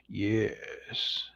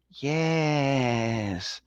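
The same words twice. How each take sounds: First: Hushed, whispery low yes; low, drawn-out villain hiss; sinister near-whisper; deep villain voice. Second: Long stretched-out cartoon yes; mock villain in a SpongeBob voice. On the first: Shown as a demonstration. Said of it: "It has to be a deep voice". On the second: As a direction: draw it out in a goofy cartoon voice. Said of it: "That's my SpongeBob voice".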